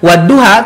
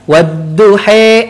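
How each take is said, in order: First: The final vowel is an open 'a' sound. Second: The final vowel is shifted toward an 'e' sound. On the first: This is the usual reading in Indonesia. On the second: This follows a different recitation tradition. "ada yang dibaca wadduhe"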